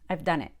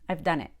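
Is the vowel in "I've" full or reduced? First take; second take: reduced; reduced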